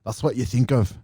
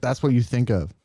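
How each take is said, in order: First: Half-hearted Scottish accent; bad Scottish accent. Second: Said in the usual way. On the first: Shown as a demonstration. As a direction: repeat it in an attempted Scottish brogue. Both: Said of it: "I'm not doing a very good Scottish accent".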